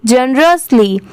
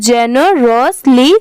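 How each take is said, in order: First: Said in the usual way. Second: Generously in spaced chunks, je-ne, ros, li; parts joined slowly. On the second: Shown as a demonstration. Teacher assembling the parts, generously said chunk by chunk. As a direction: sound out generously part by part. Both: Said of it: "पूरा मिला देंगे तो".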